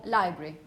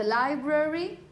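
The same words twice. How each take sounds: First: "library" as li-bry, low and falling; "library" shortened to two beats; two syllables. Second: "library" with the middle schwa kept, rising; li-bra-ry, every syllable of "library" sounded; three syllables. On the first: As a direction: say "library" with the schwa dropped. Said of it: "sometimes it's just omitted". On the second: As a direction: say "library" in three full beats. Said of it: "three syllables". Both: Shown as a demonstration.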